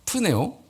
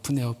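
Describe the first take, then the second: First: The word is said at a normal pace. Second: The word is said quickly and repeated.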